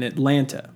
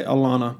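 First: Said in the usual way. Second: "Alana" for Atlanta, with the t's dropped; "Alana" as a local Southerner says Atlanta; Southern dialect pronunciation. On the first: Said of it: "or should I say Alana". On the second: Shown as a demonstration. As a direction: say "Alana", Southern-style, no t sounds. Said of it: "the appropriate dialect".

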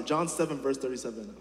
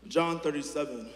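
First: John seven said louder, correcting the slip; corrected reference, John stressed. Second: Said in the usual way. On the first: Real, not acted. Preacher correcting the reference for the congregation, firm stress on John. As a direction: fix the verse with a firm John. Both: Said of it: "I was saying it wrong".

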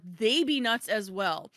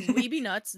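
First: "they" punched to turn it round; stress on they. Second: "We" leaned on, lively and loud; stress on We. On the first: Author turning it on the designers, stress on "they". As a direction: lean hard on "they", stretching it out. Turns the phrase onto designers. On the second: Author admitting authors are crazy too, stress on "We". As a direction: hit "We" firmly, then "be nuts". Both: Real, not acted.

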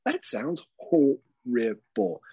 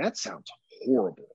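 First: "horrible" drawn out syllable by syllable; emphatic horror. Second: Mock-appalled verdict on parenthood; appalled onlooker. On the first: Retold or imitated. Childless onlooker judging parents, "horrible" spelled out in beats. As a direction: break "horrible" into slow, separate beats. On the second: Childless onlooker judging tired parents, appalled. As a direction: imitate someone put off by parenting.

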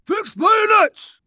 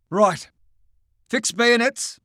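First: High, slow, shouted army command; shouted order. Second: Calm officer order. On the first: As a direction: bellow the order down the line. Sergeant relays the order. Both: Acted.

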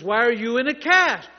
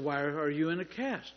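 First: Raised, louder demanding question; acted yelling match. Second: Said in the usual way. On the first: Healer badgering a man in a cast, acted angry yell. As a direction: press the question loudly, higher in pitch. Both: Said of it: "were having a yelling match".

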